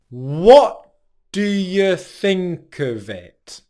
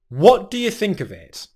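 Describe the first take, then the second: First: The phrase is said slowly. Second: The phrase is said at a natural speed.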